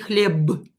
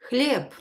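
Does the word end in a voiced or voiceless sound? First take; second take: voiced; voiceless. First: The final consonant is voiced, like b. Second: The final consonant is voiceless, like p. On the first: The speaker calls it wrong. "I will not say хлеб" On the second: The speaker calls it right. "so I will pronounce it as p"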